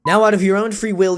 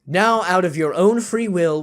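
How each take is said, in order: First: Louder, firmer narrator read; confident retake. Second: Said in the usual way. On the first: Shown as a demonstration. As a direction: restart it with conviction. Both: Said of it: "I'm gonna start over".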